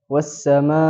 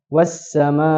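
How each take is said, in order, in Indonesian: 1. Akhirannya ditekan pada hamzah. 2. Akhirannya ditekan pada hamzah.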